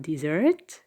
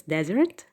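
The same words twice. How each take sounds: First: "desert" said de-SERT, stress moved to the second syllable, slower; the wrong version, stressed at the end; teacher demonstrating the wrong stress. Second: "desert" said DE-sert, stress on the first syllable; teacher modelling the right stress. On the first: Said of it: "It is not on the second". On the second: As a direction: land on the start: DE-sert. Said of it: "the stress is on the first syllable". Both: Shown as a demonstration.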